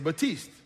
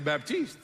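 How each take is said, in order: First: The P sound is silent. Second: The P sound is pronounced. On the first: It is the French way of saying it. "If I was speaking French, then I would say Baptiste. Because the P is going to be silent" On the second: It is the English way of saying it. "So if I'm speaking English, I got to say Baptiste"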